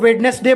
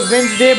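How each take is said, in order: First: The first d sound is pronounced. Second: The first d sound is left out. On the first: The speaker calls it wrong. "वेडनेसडे बोलते हैं" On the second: The speaker calls it right. "इसे वेंसडे बोलना चाहिए"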